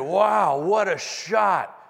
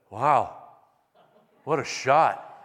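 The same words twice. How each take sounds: First: It is said with genuine, impressed admiration. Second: It is said with a dry, sarcastic tone. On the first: The shot was excellent. The speaker calls it right. "I'd rather be able to step up, and when I hit the ball, people would say" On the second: The shot was terrible. The speaker calls it wrong. "instead of"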